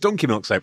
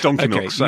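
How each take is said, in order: First: The word donkey carries the main stress. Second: The word donkey does not carry main stress. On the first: It is milk soap from a donkey, not another animal. The speaker calls it wrong. "would be to imply that this is donkey milk soap as opposed to cat milk soap" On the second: It is soap made from donkey milk. The speaker calls it right. "You want to bracket the donkey milk together? Yes"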